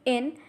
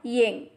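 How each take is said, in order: First: It starts directly with the vowel, no y. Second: It starts with a y glide before the vowel. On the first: The speaker calls it right. "Repeat after me in" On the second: The speaker calls it wrong. "and not ying"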